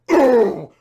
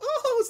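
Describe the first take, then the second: First: It is a deep, guttural cry. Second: It is a shrill, high-pitched cry. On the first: It is a powerful, fierce scream. "it's this guttural" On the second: It is the usual helpless scream. "shrill, ... The high pitched thing"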